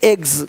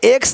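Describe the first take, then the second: First: The word ends with a gz sound. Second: The word ends with a ks sound. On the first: The speaker calls it right. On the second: The speaker calls it wrong.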